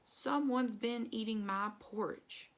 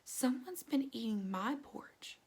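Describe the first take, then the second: First: It is said in a big, deep, growly voice. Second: It is said in a quiet, gentle voice. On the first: "in a great big growly voice" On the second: "in her quiet voice"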